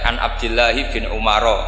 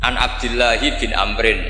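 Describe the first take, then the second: First: The last name is pronounced Umaro. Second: The last name is pronounced Amrin. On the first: The speaker calls it wrong. "Itu gurunya langsung tahu" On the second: The speaker calls it right. "kok Amrin ada wawunya berarti bener"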